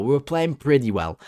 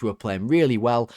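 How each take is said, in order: First: Correcting with weight on "pretty"; "pretty" picked out more strongly than the rest; stress on pretty. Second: Said in the usual way. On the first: Real, not acted. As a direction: lean on "pretty" to downgrade the claim. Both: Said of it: "Not really well".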